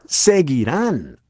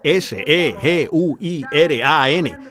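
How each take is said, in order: First: Seguirán said slowly with the weight on the final A; preacher stressing the A in seguirán; stress on the last A. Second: Slow spelling, S E G U I R A N, each letter apart; spelled out letter by letter. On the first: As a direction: lean on the A of seguirán. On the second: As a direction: spell S E G U I R A N out slowly for the congregation. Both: Shown as a demonstration. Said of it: "acento en la A".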